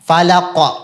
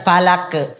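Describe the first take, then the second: First: The final consonant bounces with an o-like vowel. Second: The final consonant bounces with an e-like vowel. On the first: The speaker calls it right. "pantulnya menjadi vokal o" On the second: The speaker calls it wrong.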